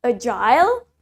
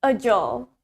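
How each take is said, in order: First: "agile" ending in a full "-ile"; British "agile", A-jile, rising; British pronunciation. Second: "agile" with a short ending, like "a-jol"; American "agile", no eye sound before the L; low "agile" with a reduced last syllable; American pronunciation. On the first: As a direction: model "agile" rhyming with "mile". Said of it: "Okay, in British". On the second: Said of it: "In American accent". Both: Shown as a demonstration.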